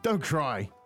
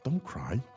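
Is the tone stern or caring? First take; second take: stern; caring. First: It sounds stern, like a command. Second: It sounds soft and caring.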